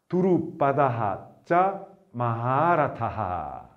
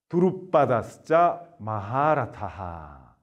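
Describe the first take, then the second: First: Each word is said separately with breaks. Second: The words run together with linked sounds. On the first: "처음에는 끊어 읽고" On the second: "이제는 이어 읽어보겠습니다"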